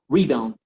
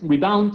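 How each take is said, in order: First: The stress is on the first syllable. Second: The stress is on the second syllable. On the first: The speaker calls it right. "sino rebound. Re" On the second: The speaker calls it wrong. "no, no es rebound"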